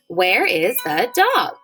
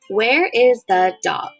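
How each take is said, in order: First: It is said with a questioning intonation. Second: It is said flatly, like a statement. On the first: The speaker calls it right. "listen to me ask it like a question" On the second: The speaker calls it wrong. "This time I'm not going to make my voice sound like that"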